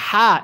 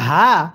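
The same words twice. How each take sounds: First: The h is light and breathy, not from the throat. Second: The h is voiced deep in the throat. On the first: The speaker calls it wrong. "যদি হা এরকমভাবে পড়ি তাহলে পড়াটা শুদ্ধ হবে না" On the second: The speaker calls it right. "গলার মধ্যে আওয়াজ করে পড়ব"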